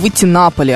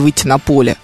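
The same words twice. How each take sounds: First: The stress falls on the preposition на. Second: The stress falls on the noun поле. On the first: The speaker calls it right. "переносим ударение на предлог" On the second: The speaker calls it wrong. "а не"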